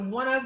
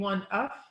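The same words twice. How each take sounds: First: The two words run together with continuous voicing. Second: The two words are said separately. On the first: The speaker calls it right. "we link that so that we get voicing continuously through that" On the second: The speaker calls it wrong. "rather than saying one of"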